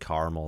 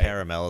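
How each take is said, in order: First: It is said the Midwest way. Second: It is said the East Coast way. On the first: "is like a Midwest thing" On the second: "is more of an East Coast thing"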